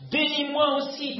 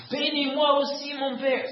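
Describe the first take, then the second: First: High pleading cry, a touch louder; bitter cry. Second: High, louder tearful cry; raised weeping plea. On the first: Esau begs his father for a blessing, pleading cry. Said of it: "il poussa de forts cris pleins d'amertume". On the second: Esau begs his father again, raised tearful plea. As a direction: weep as you beg again. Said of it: "Ésaü éleva la voix et pleura". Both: A narrator's reading.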